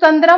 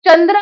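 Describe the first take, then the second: First: The first consonant is a palatal 'ch' sound. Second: The first consonant is a dental-palatal 'ts' sound. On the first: The speaker calls it wrong. "चंद्र म्हटलेलं नाही" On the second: The speaker calls it right. "चंद्र म्हटले आपण"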